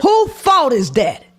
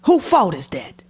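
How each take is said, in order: First: "Who" punched high and loud; loud, pointed "Who fault is that?"; stress on WHO. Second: Said in the usual way. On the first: Shown as a demonstration. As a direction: hit the word "Who" hard, higher and louder. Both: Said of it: "Remember this".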